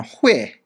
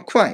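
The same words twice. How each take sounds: First: 会 said huì, with an h onset; usual huì reading. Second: 会 said kuài, with a k onset; kuài pronunciation. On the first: Teacher showing the character's common reading, 会 said huì. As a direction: read 会 as hway, not kwai. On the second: Teacher giving this word's reading, 会 said kuài. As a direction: pronounce 会 as kwai, not hway. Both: Shown as a demonstration. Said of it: "発音は会と言いますね".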